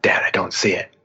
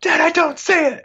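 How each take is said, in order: First: Said in the usual way. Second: Very high-pitched mock child's protest; imitated frustrated daughter. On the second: Daughter telling dad she can't spot it, frustrated. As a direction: mimic an exasperated kid, voice way up high.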